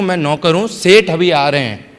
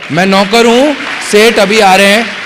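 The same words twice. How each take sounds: First: Said in the usual way. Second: Playful mock servant. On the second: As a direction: announce it like a grinning servant. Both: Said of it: "मैंने उसको बोला कि".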